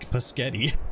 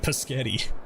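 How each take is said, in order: First: It is said in a plain, ordinary accent. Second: It is said in a mock Italian accent.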